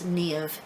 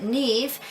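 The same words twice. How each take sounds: First: Niamh in two syllables, "nee-uv"; northern two-syllable pronunciation. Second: Niamh in one syllable, "neev"; common Irish pronunciation. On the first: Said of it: "pronounces it with two syllables". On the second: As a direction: say Niamh with a single long ee. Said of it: "most of Ireland pronounces it Niamh". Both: Shown as a demonstration.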